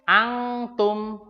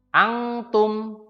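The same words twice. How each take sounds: No difference in how they are said.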